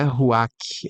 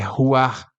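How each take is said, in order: First: The word ends in a hard 'ch' sound. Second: The word ends in a soft 'r' sound. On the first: The speaker calls it wrong. "não é ruach" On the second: The speaker calls it right. "é ruar"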